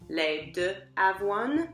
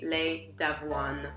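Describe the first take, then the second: First: The 'de' is a separate syllable before 'avoine'. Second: The 'de' is elided and joined onto 'avoine'. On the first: The speaker calls it wrong. "if you say les deux avoine, they'll probably figure out what you're talking about" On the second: The speaker calls it right. "it's going to be les d'avoine"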